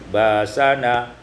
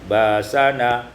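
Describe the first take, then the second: First: A long a replaces the glottal stop. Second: A long a replaces the glottal stop.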